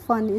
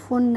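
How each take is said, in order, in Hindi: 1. स्वर एक खुली 'uh' ध्वनि है। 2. स्वर एक गोल होंठों वाली 'oo' ध्वनि है। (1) "हम पढ़ेंगे फन" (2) "इसको फुन नहीं पढ़ेंगे"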